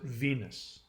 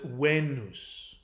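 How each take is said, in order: First: It is pronounced the modern English way. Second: It is pronounced the classical Latin way. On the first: "we pronounce it Venus" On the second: "The Latins pronounced it Venus"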